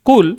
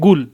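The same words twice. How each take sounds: First: "কুল" with a hard back q at the start; standard Arabic qaf. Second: "গুল" with a voiced g in place of the qaf; Saudi g for qaf. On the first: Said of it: "তারা কফকে সর্বদা গাইন বলে". ("কুল" শুদ্ধ কফ দিয়ে উচ্চারণ) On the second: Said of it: "এখানে সৌদিরা বলবে হচ্ছে". (সৌদি উচ্চারণে কফের বদলে গ দিয়ে "গুল") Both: Shown as a demonstration.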